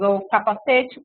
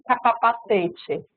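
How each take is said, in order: First: Said in the usual way. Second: "capapacete" com a sílaba "pa" repetida, mais devagar; sílaba intrusa. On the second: Shown as a demonstration. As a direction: insira um "pa" a mais em "capacete". ("capapacete" imitando a intrusão da criança) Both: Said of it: "se ela introduz um monte de sílaba".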